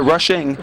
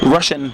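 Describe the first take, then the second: First: The word ends with a clear g sound. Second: The word ends without any g sound. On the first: The speaker calls it right. "Put a G in there" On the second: The speaker calls it wrong. "I kind of drop the last letter"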